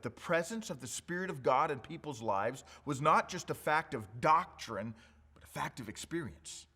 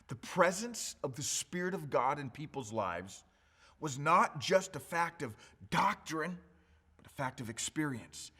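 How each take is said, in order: First: It is said at a normal pace. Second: It is said slowly.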